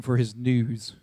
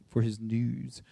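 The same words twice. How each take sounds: First: Said in the usual way. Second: NEWS set off wryly, low and quiet; spoken quotation marks. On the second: Shown as a demonstration. David scorning the messenger's NEWS, quotation marks round it. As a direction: say "news" as if in air quotes, dropped low. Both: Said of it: "put that in quotation marks now".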